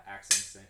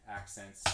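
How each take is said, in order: First: The first word hit hard and loud; accented. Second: Said in the usual way. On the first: Shown as a demonstration. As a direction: punch it like an accented drum stroke. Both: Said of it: "Uh, accents".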